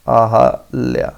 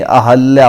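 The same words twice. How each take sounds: First: अहल्या drawn out very slowly, a-hal-ya; slow careful pronunciation. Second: अहल्या said as a-hal-ya, no i after h; correct pronunciation. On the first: Teacher modelling the spelling for the class, very slow. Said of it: "ऐसे लिखा जाएगा". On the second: Teacher correcting अहिल्या to students, clear pronunciation. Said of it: "अहिल्या नहीं". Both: Shown as a demonstration.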